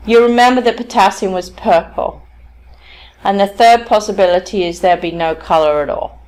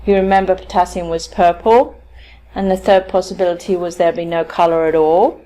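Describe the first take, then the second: First: "purple" and "at all" drop as closed statements; falling tones. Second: "purple" and "at all" tilt upward, seeking confirmation; rising tone. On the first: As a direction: let "purple" and "all" fall, asking for no response. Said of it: "he chose to use falling tones". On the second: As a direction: invite a nod by lifting "purple" and "all". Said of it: "using the rising tone, asks for some kind of feedback". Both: Retold or imitated.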